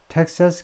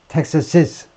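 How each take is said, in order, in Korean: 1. 끝에 음절이 더 붙지 않고, 그냥 Texas처럼 끝나요. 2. 끝에 '-iz' 음절이 하나 추가로 붙어요. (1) "주격처럼 텍사스 컨servative movement라고 발음하는 사람도 있긴 있어요. 공부가 부족한 사람들은 그래요" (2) "소리는 텍사시스 소유격 소리를 내야 된다"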